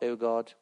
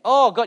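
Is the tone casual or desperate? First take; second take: casual; desperate. First: It is said lightly and casually. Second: It is said with pleading, desperate intensity. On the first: The speaker calls it wrong. "It's not" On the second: The speaker calls it right. "There's a desperacy here in his voice"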